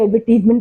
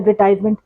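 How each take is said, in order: First: The third syllable has an 'ee' vowel. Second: The third syllable has a long 'eye' vowel. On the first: This is the usual pronunciation nowadays. "अब कुछ सालों से एडवर्टीजमेंट pronounce किया जाता है" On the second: This was the usual pronunciation in the past. "Previously हम इसको कहते थे"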